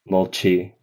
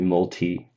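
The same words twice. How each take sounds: First: The t sounds close to a ch sound. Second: The t sounds like a plain t sound. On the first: The speaker calls it wrong. "he might be a little more towards the T C H side of things" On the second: The speaker calls it right. "whereas I would do multi"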